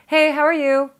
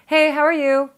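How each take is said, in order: First: It sounds automatic and perfunctory. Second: It sounds automatic and perfunctory.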